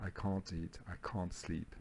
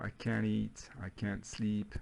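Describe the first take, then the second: First: Soft British "can't" with a long back AH; British accent. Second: "can't" with a flat American A, as in "cat"; American accent. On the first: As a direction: say it quietly the British way, "cahnt". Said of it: "Avec l'accent britannique". (accent britannique tout bas, « can't » avec un A long) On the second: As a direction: say it the American way, front vowel in "can't". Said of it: "là, c'est avec l'accent américain". (accent américain, « can't » avec le A de « cat ») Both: Shown as a demonstration.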